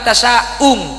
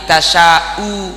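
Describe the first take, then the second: First: The word ends with a nasal ng sound. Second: The word ends on a plain vowel. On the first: The speaker calls it wrong. "bukan tasya'ung" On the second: The speaker calls it right. "tapi tasya'u qadir"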